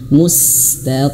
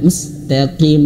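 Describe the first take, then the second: First: The s sound is long with audible breath. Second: The s sound is short and clipped. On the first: The speaker calls it right. "diperjelas anginnya... temponya dilamakan sedikit" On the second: The speaker calls it wrong. "bukan mustaqim, bukan"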